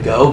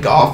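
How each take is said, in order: First: The name ends with a vowel sound. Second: The name ends with an f sound. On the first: The speaker calls it right. "some people say Go" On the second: The speaker calls it wrong. "Some people say Goff"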